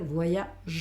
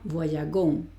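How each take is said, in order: First: The g is pronounced as a soft zh. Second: The g is pronounced as a hard g. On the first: The speaker calls it right. "en vez de decir voyagon va a ser" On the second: The speaker calls it wrong. "porque de nuevo tengo un sonido fuerte con la O"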